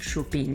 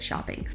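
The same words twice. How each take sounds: First: It is said with a French accent. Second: It is said with an English accent. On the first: "they just kind of put like their French accent on it" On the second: "instead of"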